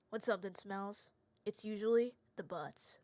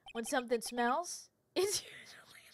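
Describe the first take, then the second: First: Quiet, low, deadpan and earnest; serious [name]. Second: Laughing through the line, whispering into giggles; can't keep a straight face; breaking up. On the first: [name] recites the school saying, dead serious. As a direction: say it with a straight face. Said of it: "I have to say this seriously like he would". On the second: [name] recites the school saying, cracking up. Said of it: "Sorry, I have to say this seriously". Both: Shown as a demonstration.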